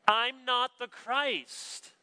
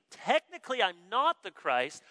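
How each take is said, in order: First: High, slow, deliberate proclamation; emphatic denial. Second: Lightly mock qualifying admission; posturing hedge. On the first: Acted. John tells the questioners who he is not, emphatic denial. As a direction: declare it without hesitation, every word drawn out. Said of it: "It's emphatic". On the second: The preacher imagines himself in John's place, mock hedging. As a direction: admit it grudgingly while leaving room to boast. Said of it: "the way we like to posture and position ourselves".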